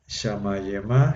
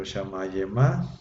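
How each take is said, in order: First: Shamayema, very slow, each syllable drawn out; teacher slowly models Shamayema; slow Hebrew pronunciation. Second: Shamayema slow, final a stretched and rising; teacher stresses the ending of Shamayema; Hebrew pronunciation. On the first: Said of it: "pero Shamayema". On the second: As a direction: contrast Shamayema against Shamayim. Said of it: "Shamayim es cielo". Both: Shown as a demonstration.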